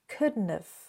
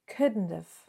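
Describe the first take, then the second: First: It is squeezed into one shortened contracted form. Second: The same.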